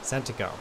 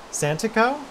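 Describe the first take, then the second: First: Santico with a falling end, stress on San. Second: Santico asked high and rising, unsure of it; questioning pronunciation. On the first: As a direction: say Santico plainly, flat at the end. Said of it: "You pronounced Santico the wrong way". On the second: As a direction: try Santico as an uncertain question. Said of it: "Is that the way I'm supposed to say it". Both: Shown as a demonstration.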